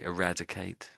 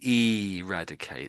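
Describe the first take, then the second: First: The word is pronounced in a plain, ordinary way. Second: The word is pronounced in a strong, emphatic way. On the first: "most people say eradicate" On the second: "some people occasionally say it that way if they want to really emphasize it"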